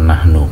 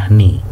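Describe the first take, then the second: First: The word ends with an u vowel. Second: The word ends with an i vowel. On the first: The speaker calls it right. "dibaca nahnu" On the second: The speaker calls it wrong. "bukan nahni"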